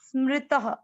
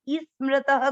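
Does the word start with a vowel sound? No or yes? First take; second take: no; yes. First: The word starts directly on the s. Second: A short vowel is added before the s. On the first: The speaker calls it right. "स को ऐसे बोलेंगे" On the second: The speaker calls it wrong. "स ऐसे ई स्मृतः कोई नहीं बोलेगा"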